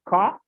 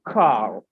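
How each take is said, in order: First: The final r sound is dropped. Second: The final r sound is pronounced.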